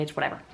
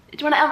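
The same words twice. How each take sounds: First: Soft, low brush-off; dismissive. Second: Loud, high outburst; exaggerated whatever. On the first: Real, not acted. Telling herself she can deal with it, quiet dismissal. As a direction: toss it away quietly. Brushing off being recognized at work. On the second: Insisting she can deal with it, loud overblown dismissal. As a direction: blow it up into a hammed-up cry.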